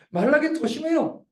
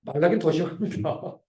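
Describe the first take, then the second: First: 말라기는 said again through a laugh, higher; amused retelling of 말라기는; laughing restatement. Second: Said in the usual way. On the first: Real, not acted. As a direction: chuckle as you repeat 말라기는 더 심해요.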